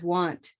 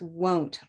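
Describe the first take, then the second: First: The vowel is an open 'ah' sound. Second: The vowel is a rounded 'oh' sound. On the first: The speaker calls it wrong. "so many people mispronounce it as want" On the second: The speaker calls it right. "and it's won't"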